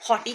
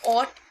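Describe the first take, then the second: First: It is two syllables starting with an h sound. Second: It is one syllable with no h sound. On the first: Some people say it this way. "कुछ इसे हॉटी कहते हैं" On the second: This is the brand's actual pronunciation. "Actually में ऑट इसकी pronunciation है।"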